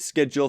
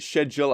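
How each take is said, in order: First: The word is pronounced the American way. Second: The word is pronounced the British way. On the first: "people in the States pronounce it schedule" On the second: "most people from the U K pronounce it schedule"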